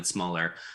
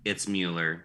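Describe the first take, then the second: First: The first vowel sounds like 'mull'. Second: The first vowel sounds like 'mew'. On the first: The name is spelled without an E or an umlaut. "If there's none of the above" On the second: The name is spelled with an E or an umlaut. "if there's an E or an umlaut"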